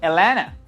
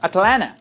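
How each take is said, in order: First: The first t sound is dropped. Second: Only the first t sound is pronounced. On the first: "those people will not even translate number one here because they don't pronounce it" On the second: "since you don't pronounce the second"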